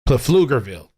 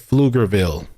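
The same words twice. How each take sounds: First: The P at the start is pronounced. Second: The P at the start is silent. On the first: "I want to pronounce that shit with the P" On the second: "They're saying it's supposed to be"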